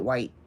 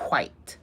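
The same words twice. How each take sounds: First: It starts with a plain 'w' sound. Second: It starts with a breathy, whistling 'hw' sound. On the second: "like they're whistling"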